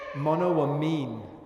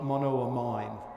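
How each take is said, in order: First: The amine part sounds like the word amino. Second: The amine part does not sound like amino. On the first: The speaker calls it right. "the proper pronunciation is monoamine, like amino acid" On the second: The speaker calls it wrong. "not monoamine"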